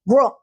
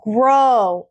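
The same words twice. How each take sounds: First: The vowel sound is short and clipped. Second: The vowel sound is drawn out long. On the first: The speaker calls it wrong. "It's not going to be grow" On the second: The speaker calls it right. "Draw out your O"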